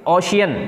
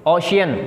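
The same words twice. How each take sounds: The two takes are said the same way.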